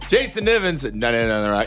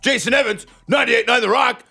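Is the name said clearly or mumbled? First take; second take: mumbled; clear. First: It is rushed and grudging, like a throwaway. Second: It is clearly enunciated and upbeat, like an introduction.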